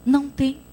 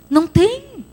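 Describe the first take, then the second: First: Said in the usual way. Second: "Não tem" repeated, pitched high and louder with a falling end; emphatic high Não tem. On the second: Shown as a demonstration. Pastor insisting to the congregation, "Não tem" hit hard. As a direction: drive "Não tem" home, higher and louder.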